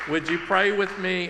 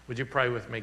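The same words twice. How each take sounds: First: Higher and louder, lifted with energy; eager invitation to pray. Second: Said in the usual way. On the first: Real, not acted. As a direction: call the room into prayer, bright and raised. Pastor invites congregation to pray.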